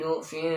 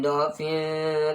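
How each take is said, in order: First: The first vowel is a 'u' sound. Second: The first vowel is an 'a' sound. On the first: "dengan harokat dhammah" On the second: "pakai harokat fathah"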